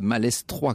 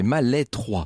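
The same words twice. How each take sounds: First: The S in the middle is pronounced. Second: The S in the middle is silent. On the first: The speaker calls it wrong. "c'est pas Malestroit, comme je le dis depuis le début" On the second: The speaker calls it right. "les Bretons ne prononcent pas le S"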